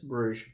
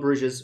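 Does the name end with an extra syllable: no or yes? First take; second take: no; yes. First: The name ends without an extra syllable. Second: The name ends with an added extra syllable. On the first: The speaker calls it right. "but it's not there" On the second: The speaker calls it wrong. "Not Bruges, It's so easy to add that ES to the end"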